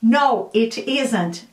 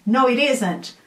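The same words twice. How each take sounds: First: "it isn't" slow, with a clear t; careful, slow "it isn't" for learners; separated pronunciation. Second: "it isn't" run together with a tapped t; "it isn't" joined into one flowing word; linked pronunciation. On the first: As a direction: say "it isn't" as two distinct words. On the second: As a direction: link "it isn't" like "ih-rizn't". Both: Shown as a demonstration. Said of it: "Tô dando as duas pronúncias pra você ver".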